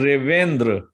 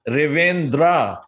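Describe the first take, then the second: First: The final vowel is short and clipped. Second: The final vowel is drawn out long. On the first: The speaker calls it right. "instead of they just saying" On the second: The speaker calls it wrong. "they have a tendency to elongate that last, the A at the end of it"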